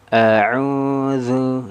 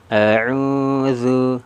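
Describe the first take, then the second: Both takes have the same delivery.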